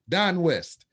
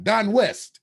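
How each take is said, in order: First: Said in the usual way. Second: Don in "Don West" higher and louder; stressed correction. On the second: Real, not acted. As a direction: land the right name firmly. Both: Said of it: "the other Don".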